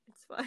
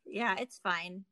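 First: A sheepish whispered aside; whispering. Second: Said in the usual way. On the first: Real, not acted. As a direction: whisper it to yourself, wry. Whispered repeat, self-mocking.

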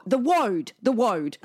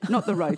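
First: "road" said as "woad"; little-kid W in place of the R in "road"; child's mispronunciation. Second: Said in the usual way. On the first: Retold or imitated.

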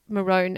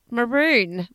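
First: MAROON rhyming with bone; long O in MAROON. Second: MAROON rhyming with balloon; stretched oo in MAROON. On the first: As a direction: say MAROON as "ma-rone". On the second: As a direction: say MAROON with a long oo, like moon. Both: Shown as a demonstration. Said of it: "also be maroon and maroon".

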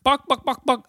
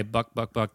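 First: High, quick chicken clucks; high-pitched bock-bock-bock; chicken clucking. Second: Said in the usual way. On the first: Retold or imitated. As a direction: imitate a clucking hen. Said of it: "and the chicken went". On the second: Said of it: "That's what the chicken sounds like".

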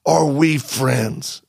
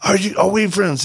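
First: Very slow, each word spaced out; slow deliberate question. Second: Higher, pushed retold yell; mock yell. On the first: Retold or imitated. Asking the agitated soldier slowly whether they are friends. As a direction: ask it slowly and carefully, letting every word land. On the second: Yelling to the hard-of-hearing soldier, a mild mock yell. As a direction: raise it over him as if he can't hear. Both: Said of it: "we're yelling at this point".

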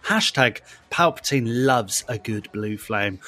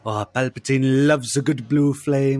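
First: Said in the usual way. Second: Light mock impression of a friend, punch on "loves"; a hint of Luke's delivery, "loves" stressed; imitating Luke. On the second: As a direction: lean on "loves" the way Luke says it. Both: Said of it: "as, um, Luke will say".

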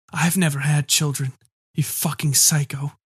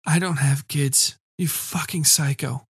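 First: Rasping. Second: Slow, hoarse repetition; rasping repeat. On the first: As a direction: rasp it out with unused vocal cords. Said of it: "I rasped". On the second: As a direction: rasp it again, slow and firm. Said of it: "I repeated". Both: A narrator's reading.

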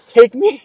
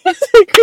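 First: Louder, higher, swooning line; smitten coworker, quoted. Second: High, loud, breaking into laughter; can't hold it together, laughing through it; laughing repeat. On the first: Retold or imitated. Telling co-host what the coworker said about the detective, loud and swooning. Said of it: "my coworker was like". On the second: Real, not acted. Laughing while repeating the coworker's line to co-host.

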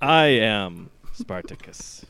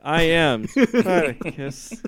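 First: Slow mock-heroic proclamation that falters; hammed-up movie declaration. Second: Slow, high squeak on a heroic line; squeaky. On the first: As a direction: declare it grandly, drawn out. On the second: Shown as a demonstration. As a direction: mimic your own voice squeaking, exaggerated. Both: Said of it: "just sort of squeak a little bit".

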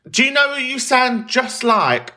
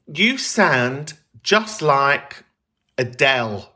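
First: High, drawn-out mock question; high put-on quote. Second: Slow, exaggerated Wigan accent; funny Wigan accent. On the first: Wife of a couple met on holiday asks, high mock voice. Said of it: "she didn't say it in that way". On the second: Wife from Wigan to a stranger, mock Wigan accent. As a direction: imitate a thick northern English Wigan accent, drawn out. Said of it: "She said it in a funny accent".

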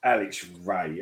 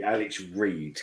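First: "Alex Ray" with Ray rhyming with day. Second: "Alex Reid" with Reid rhyming with seed. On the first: Correcting a mate's name, Ray said like day. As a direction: end "Ray" on an open ay sound, ray as in day. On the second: The mix-up version of the name, Reid with a long ee. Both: Shown as a demonstration.

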